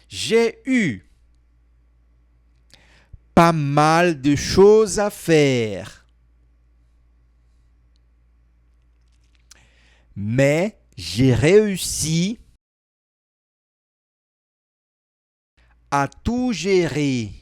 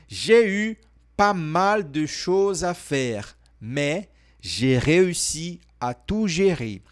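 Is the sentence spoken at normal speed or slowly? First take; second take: slowly; normal. First: The sentence is spoken more slowly. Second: The sentence is spoken at normal speed.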